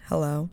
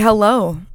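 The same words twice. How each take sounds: First: It is said in a calmer way. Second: It is said in an overly excited way.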